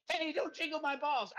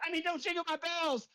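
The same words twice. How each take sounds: First: A cheeky fake slip of the tongue; deliberate slip. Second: Said in the usual way. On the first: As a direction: say balls instead of bells, as a naughty slip.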